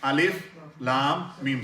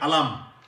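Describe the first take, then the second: First: Each letter name is said separately in full. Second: The letters are blended into one short word. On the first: The speaker calls it right. "We read Alif Lam Mim separately" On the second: The speaker calls it wrong. "usually in other other other spaces, we would have read Alam"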